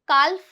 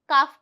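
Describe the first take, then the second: First: An L sound is heard before the F. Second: No L sound is heard before the F. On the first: The speaker calls it wrong. "काल्फ नहीं पढ़ेंगे" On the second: The speaker calls it right. "काफ पढ़ेंगे"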